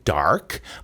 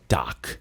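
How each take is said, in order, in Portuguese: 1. Ela é dita com sotaque americano. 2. Ela é dita com sotaque britânico. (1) "o norte-americano falaria dark" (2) "mas ele fala dark"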